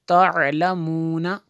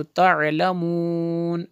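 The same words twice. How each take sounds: First: तअलमूना with final a and a rising end; full form talamuna. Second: तअलमून ends on n with no final a; pausal form talamun. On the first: Teacher reading the full connected form to students. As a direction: read तअलमूना in full, slowly. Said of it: "वक्फ करेंगे तो तअलमून". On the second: Teacher showing the stopping form to students. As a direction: stop on तअलमून without the last vowel. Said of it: "ऐसे पढ़ेंगे". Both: Shown as a demonstration.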